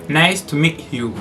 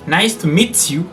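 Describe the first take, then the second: The two takes are said the same way.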